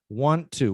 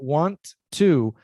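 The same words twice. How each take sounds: First: The two T sounds merge into one. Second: Both T sounds are pronounced separately. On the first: The speaker calls it right. "want to, one T" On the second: The speaker calls it wrong. "not want to"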